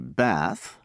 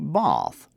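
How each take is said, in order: First: It is said in an American accent. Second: It is said in a British accent. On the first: "Americans say bath" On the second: "the British say both"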